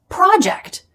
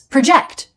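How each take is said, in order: First: The stress is on the first syllable. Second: The stress is on the second syllable. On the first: It is a noun meaning a piece of planned work. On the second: It is a verb meaning to estimate the future.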